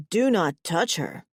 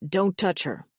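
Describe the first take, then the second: First: Hammed-up mock warning; mocking imitation. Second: Understated possessive warning. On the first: Brother mimics the possessive mate, mocking. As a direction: mimic the jealous mate teasingly. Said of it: "Zenek mocks, tossing his mane and pretending to be me". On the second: New mate warns brother away from her, possessive. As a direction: warn them off, controlled. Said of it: "there is a possessive hunger written on his face". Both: A narrator's reading.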